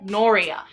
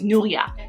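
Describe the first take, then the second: First: The name is said in an Americanized way. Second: The name is said in its original way. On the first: It is an adapted version that others could say easily. The speaker calls it wrong. "alter my name to sound more American" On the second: It is the speaker's real name. The speaker calls it right. "My name is Nuria"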